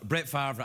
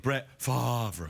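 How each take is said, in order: First: The name is pronounced in a casual, ordinary way. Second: The name is pronounced in a careful, deliberate way. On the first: The speaker calls it wrong. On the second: The speaker calls it right.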